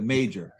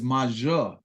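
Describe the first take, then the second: First: The name is said with an English pronunciation. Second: The name is said with a French pronunciation. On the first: "instead of Major" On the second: "my grandfather was French Canadian, is Major"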